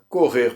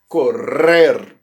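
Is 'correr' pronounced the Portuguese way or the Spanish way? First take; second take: Portuguese; Spanish. First: It is pronounced with Brazilian Portuguese sounds. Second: It is pronounced with Spanish sounds. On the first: "correr para o brasileiro" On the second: "correr para o espanhol"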